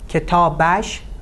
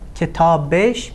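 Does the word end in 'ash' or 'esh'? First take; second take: ash; esh. First: The ending is pronounced with an 'a' vowel. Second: The ending is pronounced with an 'e' vowel. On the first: This is the written, formal form. "written form" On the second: This is the everyday spoken form. "spoken form"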